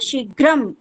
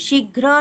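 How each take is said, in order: First: The word ends with a final m sound. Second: The word ends without a final m sound. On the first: The speaker calls it right. "शीघ्रम लिखना पड़ेगा" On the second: The speaker calls it wrong. "शीघ्र केवलं न अशुद्धम अस्ति शीघ्र नहीं होता है"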